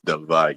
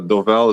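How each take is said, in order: First: The double L is said as a J sound. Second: The double L is said as an L sound. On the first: This follows Spanish pronunciation. The speaker calls it right. "when there's a double L, it's pronounced like a J" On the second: This is how most people say it. The speaker calls it wrong. "pretty much like the the go-to for a lot of people"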